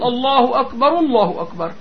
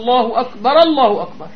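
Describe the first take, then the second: First: The first akbar ends with a 'u' vowel. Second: The first akbar ends with an 'a' vowel. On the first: The word takes its own nominative ending as a predicate. "نرفعها ... نخليها خبر مبتدأ وخبر" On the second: The vowel is carried over from the next word's glottal stop. "بتنقل هالفتحة اللي على الهمزة تبع الله للراء"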